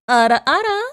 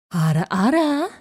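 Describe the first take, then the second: First: Teasing ara ara with a rising tune; mature anime woman. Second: Mature anime woman. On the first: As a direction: breathe it out like an older anime lady. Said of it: "not the ara, ara". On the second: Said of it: "what was her". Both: Acted.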